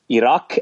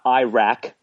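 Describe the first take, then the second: First: The A is pronounced soft, as in father. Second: The A is pronounced hard, as in cat. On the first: The speaker calls it right. "if you pronounce it soft, the proper way" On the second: The speaker calls it wrong. "is not Iraq like he says"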